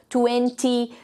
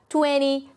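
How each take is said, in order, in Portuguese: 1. A palavra é pronunciada de forma cuidadosa e formal. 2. A palavra é pronunciada de forma descontraída e informal. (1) "um jeito mais formal" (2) "um jeito mais informal de falar"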